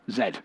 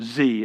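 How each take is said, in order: First: The letter is said the British way, zed. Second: The letter is said the American way, zee.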